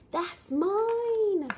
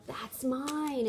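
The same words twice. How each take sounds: First: High, loud and bouncy title read; fun, exciting reading voice. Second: Said in the usual way. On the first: Shown as a demonstration. Parent reading a picture book title to a toddler, excited. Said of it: "always use, like, a fun, exciting voice". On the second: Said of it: "So we start with the book".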